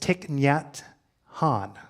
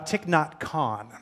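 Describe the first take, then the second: First: The last word starts with a soft H sound. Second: The last word starts with a hard K sound. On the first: The speaker calls it right. "it's Thich Nhat Han" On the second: The speaker calls it wrong. "I know it's not Thich Nhat Khan"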